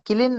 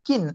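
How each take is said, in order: First: The L sound is pronounced in the word. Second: The L sound is left out of the word. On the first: The speaker calls it wrong. "കിലിൻ നല്ല വായിക്കുന്നത്" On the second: The speaker calls it right. "എൽ silent ആണ്"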